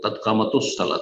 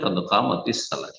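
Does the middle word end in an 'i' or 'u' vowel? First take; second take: u; i. First: The middle word ends in a u vowel. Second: The middle word ends in an i vowel. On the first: This is a regional dialect pronunciation. The speaker calls it wrong. "অনেক আরবরা পড়ে কাদ কামাতুস সালাহ, তাদের আঞ্চলিক ভাষা, সেটি ভুল" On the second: This is the standard classical pronunciation. The speaker calls it right. "শুদ্ধ হচ্ছে কাদ কামাতিস সালাহ"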